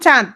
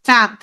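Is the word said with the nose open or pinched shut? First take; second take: open; pinched. First: It is said normally with air through the nose. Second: It is said with the nose pinched shut. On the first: "যেমন আমি বললাম চাঁদ" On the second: "আমি নাক বন্ধ করি"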